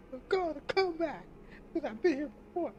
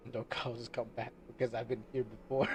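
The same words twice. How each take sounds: First: Silly high voice. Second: Said in the usual way. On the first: Pretend. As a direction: squeak the line out in a goofy falsetto. Lyric redone in a silly voice.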